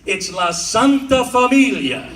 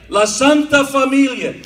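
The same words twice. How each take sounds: First: La Santa Familia with rolled Italian flair, stress on Santa; Italian accent. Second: La Santa Familia, higher and louder, big Italian swagger on Santa; grand Italian accent. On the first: Comic showing how the school name sounds, Italian style. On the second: Comic selling the school name as a social club, grandly. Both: Shown as a demonstration. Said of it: "If you say it like that".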